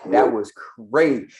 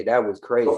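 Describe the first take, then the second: First: "crazy" stretched out long and loud; drawn-out emphasis. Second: Said in the usual way. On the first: Real, not acted. Reacting to the clip's claim, "crazy" drawn out in loud disbelief. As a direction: lean hard on "crazy", dragging out its first syllable. Repeats remark with heavy emphasis.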